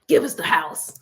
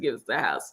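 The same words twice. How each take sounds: First: The phrase is yelled loudly. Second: The phrase is said at normal volume. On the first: "I'm not quite really yelling like that"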